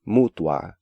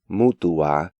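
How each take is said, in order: First: The diphthong is said as one syllable. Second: The diphthong is split into two syllables. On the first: The speaker calls it right. "when more accurate pronunciation is" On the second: The speaker calls it wrong. "Even advanced students tend to pronounce these words as"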